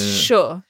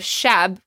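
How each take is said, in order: First: The word ends in an open o vowel. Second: The word ends in a b sound. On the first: "that Hamadani accent" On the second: "the word shab is a very popular Persian word because it means night"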